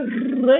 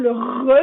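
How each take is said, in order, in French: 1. Le R se fait à l'avant de la bouche. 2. Le R se fait au fond de la gorge. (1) "il est fait en avant de la bouche" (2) "il est fait dans le fond de la gorge"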